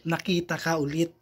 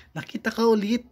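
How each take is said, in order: First: Said in the usual way. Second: "ka" lifted high with a rising end; stress on ka. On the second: Shown as a demonstration. Vlogger rereading the line, stress on "ka". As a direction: lean up on "ka" in "Nakita ka ulit".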